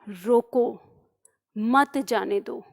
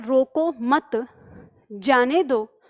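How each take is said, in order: First: The pause comes after 'roko'. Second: The pause comes after 'mat'.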